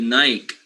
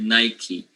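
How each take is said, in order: First: Nike is said the way non-Americans say it. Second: Nike is said the way Americans say it. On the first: "in the rest of the world, we call it Nike" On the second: "in the U S, they call it Nike"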